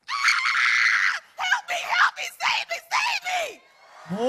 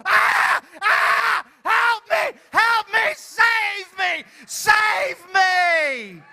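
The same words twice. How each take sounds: First: Shrieking very high, drawn out slowly at the end; terrified screaming. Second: Shrieking very high and loud, "Help me!"; terrified screaming. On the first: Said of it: "in the most terrified". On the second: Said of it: "and you go". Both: Shown as a demonstration. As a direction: scream for help in mock terror.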